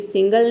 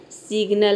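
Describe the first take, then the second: First: सिंगल with the n before the g, the wrong way; wrong pronunciation. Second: सिग्नल with the g before the n; correct pronunciation. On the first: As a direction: say सिंगल as the mistaken reading. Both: Shown as a demonstration. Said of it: "सिंगल नहीं है".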